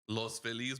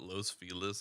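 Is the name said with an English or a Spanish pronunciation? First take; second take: Spanish; English. First: The name is pronounced the Spanish way. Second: The name is pronounced the English way. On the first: The speaker calls it right. "it's like Los Los Feliz" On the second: The speaker calls it wrong. "they call it Los Feliz in L A"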